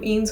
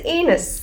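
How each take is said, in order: First: The name is said with one syllable. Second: The name is said with two syllables. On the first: The speaker calls it right. "that's how it is pronounced" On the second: The speaker calls it wrong. "I kept pronouncing it as Enos"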